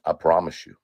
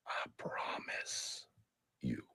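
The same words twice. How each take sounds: First: Said in the usual way. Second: Slow breathy whisper. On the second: Real, not acted. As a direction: drag out a menacing whisper. Whispered repeat of threat.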